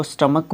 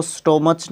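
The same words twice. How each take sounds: First: स्टमक with short vowels and final K; correct pronunciation. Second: स्टोमच with an O vowel and final CH; wrong pronunciation. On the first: Teacher corrects the word for students, स्टमक with final K. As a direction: end स्टमक in K, not CH. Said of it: "इसको स्टमक बोलते हैं". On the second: Teacher shows what not to say, स्टोमच with final CH. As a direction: end स्टोमच in CH, as in chair. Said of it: "इसको स्टोमच नहीं बोलते". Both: Shown as a demonstration.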